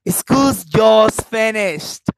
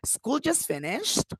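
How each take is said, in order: First: It is said in a happy tone. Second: It is said as a question. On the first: The speaker is glad about it. "you see my happiness?" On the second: The speaker is asking whether it is true. "Or the questions"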